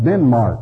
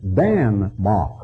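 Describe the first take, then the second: First: The first syllable sounds like 'den'. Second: The first syllable sounds like 'dan'. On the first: This is the English form of the name. "That's merely an anglicized pronunciation" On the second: This is the local form of the name. "what they call it"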